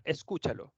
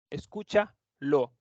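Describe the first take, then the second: First: Said in the usual way. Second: Escúchalo said slowly, each syllable es-CÚ-cha-lo drawn out; slow careful model word. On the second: Shown as a demonstration. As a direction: spell out Escúchalo slowly for the students.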